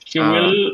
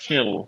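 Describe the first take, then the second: First: Both words are said in full. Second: The words are contracted into one syllable. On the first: "will become" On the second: "will become she'll"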